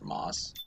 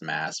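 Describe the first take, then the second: First: The vowel sounds like the one in 'cot'. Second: The vowel sounds like the one in 'cat'. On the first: This is how the speaker personally says the name. "but I pronounce it Moss" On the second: This may be the name's actual pronunciation. "it might actually be pronounced Mass"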